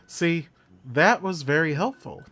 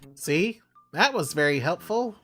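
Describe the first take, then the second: First: It is said in the speaker's normal voice. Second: It is said in a put-on character voice.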